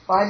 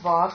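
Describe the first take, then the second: First: The word ends in the diphthong 'ai'. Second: The word ends in a plain 'a' vowel. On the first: This is the word's basic form. "vai becomes va" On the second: The word is changed by sound joining before a vowel. "because it's sandhi"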